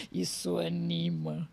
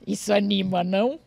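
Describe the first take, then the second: First: Slow, low, softened ironic repeat; dry irony. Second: Joking remark between laughs; amused irony. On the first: Winding down a joke about harsh criticism, slow and dry. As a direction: draw it out drily after the laugh. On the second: Joking to listeners about harsh criticism, amused and ironic. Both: Real, not acted.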